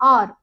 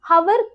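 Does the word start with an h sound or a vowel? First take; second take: vowel; h sound. First: The word begins directly with a vowel. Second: The word begins with a sounded h. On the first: The speaker calls it right. "இதுல வந்து ஹெச் silent" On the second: The speaker calls it wrong. "இத நிறைய பேரு ஹவர் அப்படின்னு சொல்றோம். ஹவர் கிடையாது"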